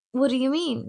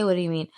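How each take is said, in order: First: Mock innocent. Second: Said in the usual way. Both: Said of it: "No, I didn't even say".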